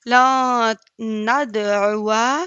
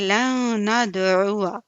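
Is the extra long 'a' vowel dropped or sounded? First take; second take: sounded; dropped. First: The extra long 'a' vowel is sounded. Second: The extra long 'a' vowel is dropped. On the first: The speaker calls it wrong. "नहीं" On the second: The speaker calls it right. "बल्कि"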